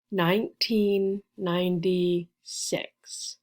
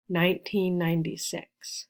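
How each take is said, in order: First: "nineteen ninety-six" slowly, with gaps between the words; slow and careful. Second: Said in the usual way. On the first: Shown as a demonstration. Teacher gives birth year, slowly and carefully. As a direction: space out each word for learners.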